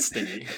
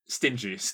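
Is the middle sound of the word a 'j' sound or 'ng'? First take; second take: ng; j. First: The middle consonant is an 'ng' sound. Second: The middle consonant is a soft 'j' sound. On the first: The person has a sting, like a bee. The speaker calls it wrong. "not Stingy" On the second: The person is mean with money. The speaker calls it right.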